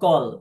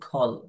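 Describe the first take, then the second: First: The first consonant is plain, without a breath. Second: The first consonant has a puff of breath. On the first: "ক আছে ক উচ্চারণ" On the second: "এটাকে বলবেন খল"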